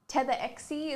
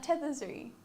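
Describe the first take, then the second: First: The name is said as Tetherexie. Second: The name is said as Tetherzuri. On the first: This is the most common way others say it. "Tetherexie is probably the most common one" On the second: This is the owner's own pronunciation. "Is how I pronounce it"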